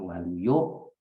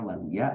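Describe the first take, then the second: First: The name ends with an 'o' vowel. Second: The name ends with an 'a' vowel. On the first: This is the Javanese way of saying it. "orang Jawa bilangnya Waluyo" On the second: This is the Sundanese way of saying it. "Orang Sunda bilangnya Waluya"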